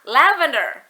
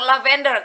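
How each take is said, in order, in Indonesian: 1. Tekanannya ada pada suku kata pertama. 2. Tekanannya tidak ada pada suku kata pertama. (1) "Ada penekanan pada suku kata la" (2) "Aku bilang lavender, ternyata dia nggak ngerti"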